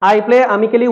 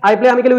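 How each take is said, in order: First: It is spoken at an ordinary, unhurried pace. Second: It is spoken at a quicker pace.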